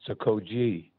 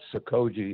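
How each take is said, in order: First: All syllables are stressed about evenly. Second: One syllable is stressed more than the others. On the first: This is the Japanese way. The speaker calls it right. "they tend to say it sort of evenly" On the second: This is the usual English-speaker way. The speaker calls it wrong. "we always pronounce it Sokoji"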